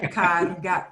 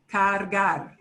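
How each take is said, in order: First: Cargar said as cagar, no R before the G; first R dropped. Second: Cargar with both R's clearly sounded; both R's pronounced. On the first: Teacher warns of nasty word, cargar missing first R. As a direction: drop the first R of cargar: ca-gar. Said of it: "If you drop the first R". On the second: Teacher models for students, cargar with both R's. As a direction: say cargar, tapping the R before G and at the end. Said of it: "it's important to pronounce both R's". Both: Shown as a demonstration.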